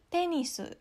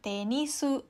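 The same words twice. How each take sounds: First: The pitch falls from high to low. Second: The pitch rises from low to high. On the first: The speaker calls it right. "untuk bunyi atas ke bawah, ini misalnya ada tenisu" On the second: The speaker calls it wrong. "bukan tenisu"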